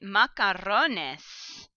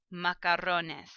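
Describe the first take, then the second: First: Macarrones drawn out slowly, every syllable clear; slow teaching model. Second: Said in the usual way. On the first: Shown as a demonstration. Teacher pointing out the cognate, saying it very slowly. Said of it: "even part of this is a cognate". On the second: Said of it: "So here's your cheese".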